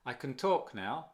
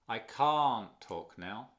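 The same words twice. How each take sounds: First: "can" reduced to almost nothing, "talk" stressed; weak can. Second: Slow "can't" with a long rounded A and no audible T; unheard T in can't. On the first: Teacher asking learners to notice, barely audible "can". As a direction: keep "can" short and unstressed. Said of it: "Tú nota otra vez". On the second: Teacher asking learners to notice, T-less long "can't". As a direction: hold the vowel of "can't" and swallow the T. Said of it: "Ni se nota, ni se aprecia el T". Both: Shown as a demonstration.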